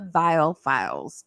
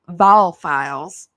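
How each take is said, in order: First: The first word is said with the 'i' sound. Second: The first word is said without the 'i' sound. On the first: The speaker calls it wrong. "I'm probably saying it wrong" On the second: The speaker calls it right. "Is it Val? And not say the I?"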